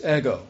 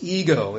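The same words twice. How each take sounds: First: "ego" with a short e, EGG-oh; Greek pronunciation of ego. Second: "ego" with a long ee first, EE-go; English pronunciation of ego. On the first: Preacher giving the Greek word for I, "ego" as EGG-oh. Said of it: "It's ego". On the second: Preacher showing how we say the Greek word, "ego" as EE-go. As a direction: say "ego" slowly, the everyday English way. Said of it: "that we pronounce ego". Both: Shown as a demonstration.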